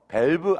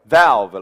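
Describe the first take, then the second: First: It starts with b, lips closed together. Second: It starts with v, mouth opened wide. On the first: The speaker calls it wrong. "밸브 아니고" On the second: The speaker calls it right. "아 이렇게 벌어져야 됩니다"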